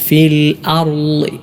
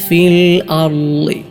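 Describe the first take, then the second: Both takes have the same delivery.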